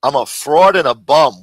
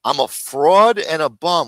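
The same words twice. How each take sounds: First: Loud disbelieving echo; incredulous repeat. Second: Slow sneering echo of the insult; slow mocking repeat. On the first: Retold or imitated. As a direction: throw the insult back, louder. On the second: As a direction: drag it out, mocking. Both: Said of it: "Where does he get this shit from".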